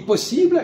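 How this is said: The word has a French pronunciation. "nous on dit possible"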